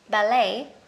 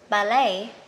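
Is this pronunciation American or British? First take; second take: American; American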